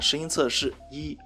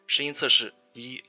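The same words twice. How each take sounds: First: Background noise is removed, leaving a cleaner voice. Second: The voice is processed to sound clearer and sweeter. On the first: "降噪模式啊…声音应该是很明显的变干净了" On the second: "女声模式…可以让声音更清澈和甜美"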